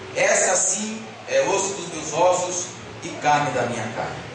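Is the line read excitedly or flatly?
flatly. It is read in a flat, unexcited way. The speaker is merely stating a fact. The speaker calls it wrong. "tem gente que lê esse texto assim"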